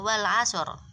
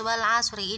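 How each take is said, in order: First: The word stops on the r without a vowel. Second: The word ends with a short i vowel. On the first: The reading stops at this word. "kalau semisal dia itu diwakofkan di sini" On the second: The reading continues into the next words. "Kalau dia dibaca terus"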